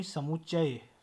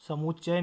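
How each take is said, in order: First: समुच्चय ending in a full 'chchay'; correct pronunciation. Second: समुच्चय with the ending shortened to 'chcha'; wrong pronunciation. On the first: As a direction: sound out the final य of समुच्चय, falling. (समुच्चय का पूरा उच्चारण) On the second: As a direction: clip the final य off समुच्चय. (समुच्चय का अधूरा उच्चारण) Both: Shown as a demonstration. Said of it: "समुच्चय नहीं".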